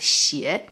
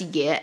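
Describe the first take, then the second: First: The syllable is said as xie. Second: The syllable is said as ye. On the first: This is the character's other, general reading. "this Chinese character can also be pronounced as 邪" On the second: It is an exclamation in this poem. "in this poem's case, it is pronounced as 爷"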